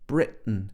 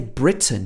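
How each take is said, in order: First: The t is a glottal stop. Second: The t is fully pronounced. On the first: "She said Britain. Britain. ... with a glottal stop" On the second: "she didn't say Britain"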